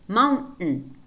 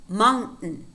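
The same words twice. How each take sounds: No difference in how they are said.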